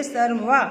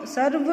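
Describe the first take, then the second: First: सर्वा with a long final आ; सर्वा, stretch the आ at the end; correct pronunciation. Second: सर्व said short, no final आ; सर्व clipped, ending on व without आ; wrong pronunciation. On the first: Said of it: "ऐसे नहीं बोलते". (सर्वा को लंबे आ के साथ बोलें) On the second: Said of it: "इसको हम सर्व ऐसे नहीं बोलते". (सर्व को बिना आ के, गलत उच्चारण) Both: Shown as a demonstration.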